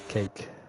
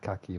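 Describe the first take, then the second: First: The name is said with one syllable. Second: The name is said with two syllables. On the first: The speaker calls it right. "my name's pronounced Cake" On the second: The speaker calls it wrong. "I've been saying it wrong the whole season"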